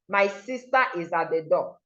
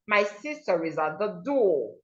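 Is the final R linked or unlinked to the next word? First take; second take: unlinked; linked. First: The R is dropped with a break before 'is'. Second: The R joins smoothly into the following vowel. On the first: The speaker calls it wrong. "This is how an average Nigerian would read this" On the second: The speaker calls it right. "so you have to link them. So you go"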